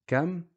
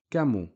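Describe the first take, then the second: First: "Kam" pitched high, one syllable ending on M; stopped M. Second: "kamu" falling, short u after M; dhamma on the M. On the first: Teacher contrasting with dhamma, high stopped syllable. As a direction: lift "Kam" and close it on the M. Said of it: "a sukoon on the meme". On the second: Teacher contrasting with sukoon, added final u. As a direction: add u to the M in "kamu". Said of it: "a dhamma short vowel". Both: Shown as a demonstration.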